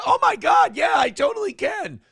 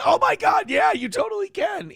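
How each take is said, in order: First: High, loud, overexcited shouting; mock gushing excitement. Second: Same thrilled squeal as before; mock gushing excitement. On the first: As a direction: squeal it like a thrilled pizza guy. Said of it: "when he came in and goes". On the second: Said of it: "It's the same".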